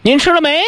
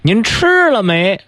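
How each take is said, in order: First: The stress is on 没. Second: The stress is on 吃.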